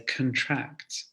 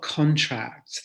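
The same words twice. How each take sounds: First: The stress is on the second syllable. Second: The stress is on the first syllable. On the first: The speaker calls it right. "the stress actually falls on the second syllable, and we say contract" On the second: The speaker calls it wrong. "It's not contract"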